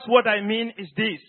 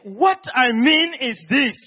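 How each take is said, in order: First: The phrase is said in a plain, even tone. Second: The phrase is said in a changed, emphatic tone.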